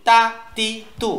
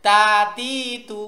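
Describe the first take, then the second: First: "তা তি তু" quick and short, each cut off; "তা তি তু" without any stretching; fast short syllables. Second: "তা তি তু" drawn out slowly as taa, tee, too; slow, lengthened "তা তি তু"; wrong stretched syllables. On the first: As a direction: say "তা", "তি", "তু" as crisp bursts. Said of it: "উচ্চারণে ফাস্ট বলবো". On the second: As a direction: stretch every vowel of "তা তি তু" in one long run. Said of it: "মারাত্মক ভুল হয়ে যাবে". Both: Shown as a demonstration.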